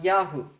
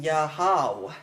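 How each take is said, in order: First: Yahoo as YA-hu, ending in oo; actual short form. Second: Yahau as ya-HAU, ending in an ow sound; hypothetical short form. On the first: Teacher contrasting short forms, Yahoo ending in oo. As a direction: close the end of Yahoo on an oo. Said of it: "not Yahoo". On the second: Teacher showing the wrong short form, Yahau ending in ow. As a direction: open the end of Yahau into how. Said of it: "the short form would have been". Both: Shown as a demonstration.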